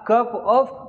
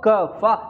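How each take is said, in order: First: It is said as two full words. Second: It is reduced to one word ending in 'uh'.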